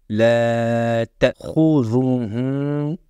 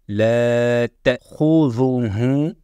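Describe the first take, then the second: The two takes are said the same way.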